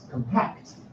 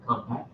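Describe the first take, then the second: First: The stress is on the second syllable. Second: The stress is on the first syllable. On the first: It is a verb meaning to press together. "It's a verb" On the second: It is a noun for a small object. "something small like that"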